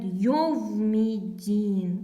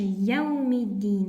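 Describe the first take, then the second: First: It begins with 'yov'. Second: It begins with 'yau'. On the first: The speaker calls it wrong. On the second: The speaker calls it right.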